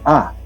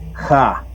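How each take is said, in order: First: The vowel is said with no breathy sound first. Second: The vowel starts with a breathy j-like sound. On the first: This is the Spanish way of saying it. "En castellano se dice A" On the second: This is the Quechua way of saying it. "En el quechua es ja"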